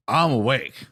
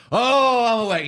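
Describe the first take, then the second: First: Mock declaration. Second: Much higher and louder, a revivalist's exultant cry; evangelistic outburst. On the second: Retold or imitated. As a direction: shout it like a sudden convert at a tent meeting. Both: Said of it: "he was very evangelistic all of a sudden".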